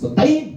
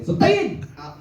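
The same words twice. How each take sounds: First: Much higher, louder curse bursting out; sudden curse. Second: Much higher shrill curse heard from the driver's seat; sudden high curse. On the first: Mother bursts out at a driver, much higher sharp curse. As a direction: spit the curse out high. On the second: Mother curses the driver beside, much higher shrill cry. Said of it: "ได้ยินเสียง". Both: Retold or imitated.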